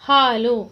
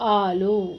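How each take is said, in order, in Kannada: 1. ಈ ಪದ h ಶಬ್ದದಿಂದ ಪ್ರಾರಂಭವಾಗುತ್ತದೆ. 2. ಈ ಪದ ನೇರವಾಗಿ ಸ್ವರದಿಂದ ಪ್ರಾರಂಭವಾಗುತ್ತದೆ.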